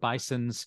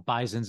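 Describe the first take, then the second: First: It ends with a plain S sound. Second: It ends with a Z sound, Western New York style.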